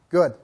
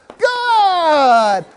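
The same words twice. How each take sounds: First: It is said in a calm, quiet tone. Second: It is said in a happy, excited tone.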